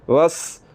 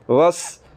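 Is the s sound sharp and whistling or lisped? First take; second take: sharp; sharp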